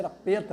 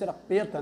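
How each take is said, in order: First: A full vowel is sounded after the P. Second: A full vowel is sounded after the P.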